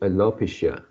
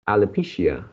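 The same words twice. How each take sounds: First: The stress does not fall on the third syllable. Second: The stress falls on the third syllable. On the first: The speaker calls it wrong. "lastly you change it into alopecia" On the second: The speaker calls it right. "firstly you pronounce quite correctly"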